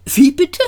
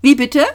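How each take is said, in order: First: High, louder choked "pardon?"; flustered, high-pitched question; stammered disbelief. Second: High, louder "pardon?"; raised, questioning old man; sharp query. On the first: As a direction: blurt it, taken aback. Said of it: "stotterte er". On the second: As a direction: ask sharply what was said. Old man startled by Arthur's mutter. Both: A narrator's reading.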